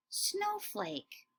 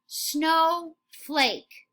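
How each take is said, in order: First: Softer, higher snowflake; soft high echo. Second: Said in the usual way. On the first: Shown as a demonstration. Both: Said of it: "say it right before me".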